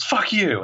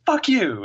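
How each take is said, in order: First: Half-hearted yelled curse; mock yell. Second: Half-hearted yelled curse thrown back; mock yell. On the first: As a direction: toss off a mild mock yell. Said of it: "when she yells". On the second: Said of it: "and he yells".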